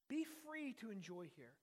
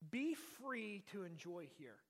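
First: Said in the usual way. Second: Slow, weighty Be free to enjoy here; slow emphatic. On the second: Shown as a demonstration. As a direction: lay out each word of Be free to enjoy here slowly.

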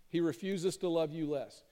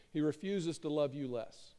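The two takes are said the same way.

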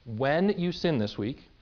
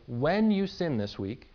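No difference in how they are said.

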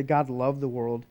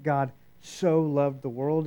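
First: Said in the usual way. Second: "so" stressed and drawn out; slow down and lean on the word "so"; emphatic stretch on "so", then the rest follows. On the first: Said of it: "Jesus doesn't just say". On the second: Shown as a demonstration. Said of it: "He's trying to be emphatic about it".

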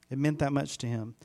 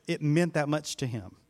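The two takes are said the same way.

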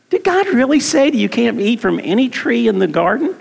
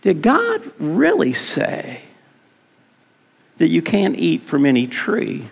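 First: Said in the usual way. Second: Sly serpent. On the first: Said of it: "that's what Satan says". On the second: Acted. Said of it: "this is what he says".

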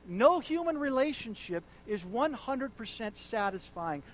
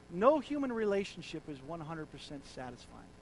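First: Louder repeat stressing no; emphatic repeat. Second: Said in the usual way. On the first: Shown as a demonstration. Preacher repeating the quote louder to the congregation. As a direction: drive the line home. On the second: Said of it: "repeated louder".

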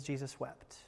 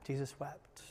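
First: Almost whispered, very soft; Jesus wept said very softly; hushed. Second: Breathy near-whisper, very soft; Jesus wept breathed out as a whisper; hushed whisper. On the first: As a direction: let the verse fall to a hush. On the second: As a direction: let it barely leave your lips. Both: Shown as a demonstration.

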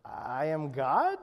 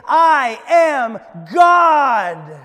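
First: Low, slow, unsure question; hesitant, half-hearted. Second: Loud, drawn-out shout, pitch up; top-of-the-lungs scream. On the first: Shirley trying the declaration at the ocean's edge, hesitant and half-hearted. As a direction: say it haltingly, rising into a question. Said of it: "kind of hesitantly, half-heartedly". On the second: Guru showing Shirley the declaration to scream, loud slow shout. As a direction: scream it out slowly, full force. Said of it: "scream at the top of your lungs". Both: Acted.

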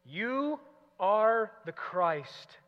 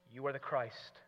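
First: "You" drawn out long and higher, then "are the Christ" slowly; stress on You. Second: Said in the usual way. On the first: Shown as a demonstration. Preacher showing the verse's emphasis, long stress on "You". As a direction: linger hard on the word "You". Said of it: "The emphasis in verse twenty-nine is on the little word you".

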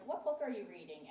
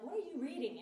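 First: Said in the usual way. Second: Higher-pitched insistent query; insistent question. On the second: Retold or imitated. Wife asks reading husband, insistent and higher. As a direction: press him for an answer, pitched up.

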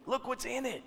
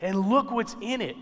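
First: Much softer, higher-pitched echo; soft, high, drawing listeners in; hushed repeat. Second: Said in the usual way. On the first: Real, not acted. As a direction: drop the volume and let it sink in. Same line repeated much softer.

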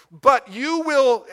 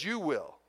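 First: "But you will" slow, high and loud, each word hit; "But you will" stretched out, punched loud and high; emphatic. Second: Soft understated. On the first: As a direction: drive home "But you will" slowly and forcefully. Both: Shown as a demonstration. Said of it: "is very emphatic".

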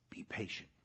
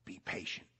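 First: Unvoiced, gentle repeat; soft whisper. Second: Breathy whispered word from God. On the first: Pastor echoing God's promise in a whisper. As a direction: whisper it again, even softer. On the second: Acted. Pastor whispering God's promise to the hurting. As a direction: barely breathe it out.

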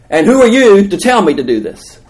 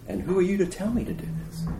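First: Loud, high-pitched protest; indignant challenge. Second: Soft, high, quick aside; hushed challenge. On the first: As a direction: challenge them in a raised voice. Acts Moses challenging God. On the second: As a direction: ask it under your voice, high and quick. Repeats Moses' challenge, hushed. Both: Acted.

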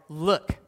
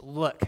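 First: Louder, curt rising Look; blunt look. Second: Said in the usual way. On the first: Shown as a demonstration. Older son cutting his father off with a louder, blunt look. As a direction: snap Look at him like a resentful son. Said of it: "not, "Hey, Dad," just, "Look". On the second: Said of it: "just, "Look".

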